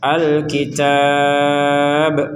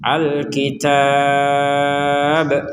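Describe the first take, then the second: Both takes have the same delivery.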